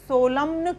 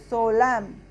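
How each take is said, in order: First: The final n sound is pronounced. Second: The final n sound is silent. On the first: The speaker calls it wrong. "सोलम्न क्यों नहीं पढ़ेंगे इसको हम?" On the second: The speaker calls it right. "हम एम letter का sound use करेंगे, तो सोलम"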